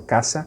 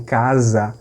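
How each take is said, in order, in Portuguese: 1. A consoante do meio é um som de s sibilante. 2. A consoante do meio é um som de z vibrado. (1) "o espanhol perdeu esse som de Z, virou caça" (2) "Eles conservam o som de Z, eles dizem casa"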